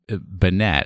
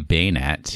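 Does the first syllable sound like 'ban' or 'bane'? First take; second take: ban; bane. First: The first syllable sounds like 'ban'. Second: The first syllable sounds like 'bane'. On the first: "I say Banet" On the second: "I don't say Baynet"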